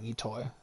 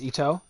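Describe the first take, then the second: First: The name ends with an 'oy' sound. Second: The name ends with an 'oh' sound. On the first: The speaker calls it wrong. "I was saying Itoi" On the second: The speaker calls it right. "No I at the end"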